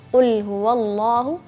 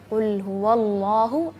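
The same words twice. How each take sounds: No difference in how they are said.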